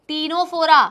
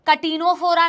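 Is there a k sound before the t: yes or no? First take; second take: no; yes. First: The word begins directly with the t sound. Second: A k sound comes before the t. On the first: The speaker calls it right. "Then comes the next phylum टीनोफोरा" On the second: The speaker calls it wrong. "इसका बिल्कुल भी नाम कटीनोफोरा नहीं है"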